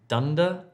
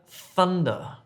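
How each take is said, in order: First: The word begins with a d sound. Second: The word begins with a th sound. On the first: The speaker calls it wrong. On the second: The speaker calls it right.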